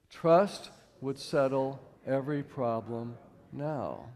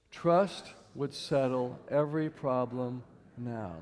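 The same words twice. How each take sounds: First: Slow, weighty repetition; slow group recitation. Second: A slow, measured recitation led for the room; slow group recitation. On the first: Leading the audience through the quote again, slow and weighty. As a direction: lean into each word of the quote. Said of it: "Let's do it one more time". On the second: Speaker leading the audience in reciting, slow and measured. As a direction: say it slowly together with them. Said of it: "Can we say that together?". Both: Shown as a demonstration.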